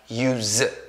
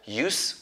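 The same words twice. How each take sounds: First: The word ends with a buzzing z sound. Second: The word ends with a hissing s sound. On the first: It is used as a verb. "it's pronounced as use with Z" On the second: It is used as a noun. "you can pronounce it as use with S"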